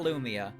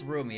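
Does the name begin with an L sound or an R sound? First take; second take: L sound; R sound. First: The name begins with an L sound. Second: The name begins with an R sound. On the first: The speaker calls it wrong. "It's not Lumia" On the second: The speaker calls it right. "her name is Rumia"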